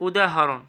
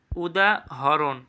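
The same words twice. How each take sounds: First: Said in the usual way. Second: "উদাহরণ" slowly as উদা, pause, হরোন; split pronunciation. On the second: Shown as a demonstration. Teacher checking students follow, "উদাহরণ" slow and split. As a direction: break "উদাহরণ" after উদা. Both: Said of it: "বুঝছো".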